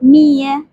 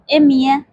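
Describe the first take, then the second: First: It starts directly with the m sound. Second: It starts with an added vowel before m. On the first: "صد میشه میه" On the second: "تو لهجه خلیجی امیه"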